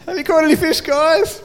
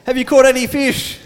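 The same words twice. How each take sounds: First: High, cheeky teasing call; playful mock call across the water. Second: Raised call across the water. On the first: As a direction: tease them from the beach in a lifted voice. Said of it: "like, going". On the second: Retold or imitated. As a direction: call out to the boat. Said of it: "He called out".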